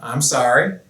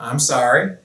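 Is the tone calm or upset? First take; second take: calm; calm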